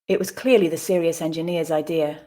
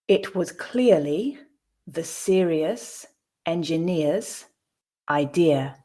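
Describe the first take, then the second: First: The sentence is read at natural speed. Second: The sentence is read slowly. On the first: "at a more natural pace" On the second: "the first time slowly"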